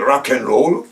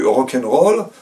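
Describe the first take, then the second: First: It is said with an English accent. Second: It is said with a French accent. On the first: "là, je parle anglais ou américain, euh, c'est-à-dire en jouant du palais" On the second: "là, je parle français"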